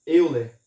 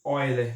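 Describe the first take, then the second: First: Euler read letter by letter in Portuguese, starting "eu"; Euler as spelt. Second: Euler with an opening "oi" sound, German-style; correct pronunciation of Euler. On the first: Teacher reading the written name to students, Euler pronounced as spelt, "EU-ler". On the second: Teacher showing how the name is pronounced, Euler said as "ÓI-ler". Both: Shown as a demonstration. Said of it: "que se pronuncia".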